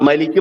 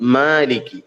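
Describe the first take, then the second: First: The first vowel is said short. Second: The first vowel is lengthened only slightly. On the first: The speaker calls it wrong. "മലിക്ക് പറഞ്ഞാലും ആകൂല" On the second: The speaker calls it right. "അല്പം നീട്ടി പറയണം"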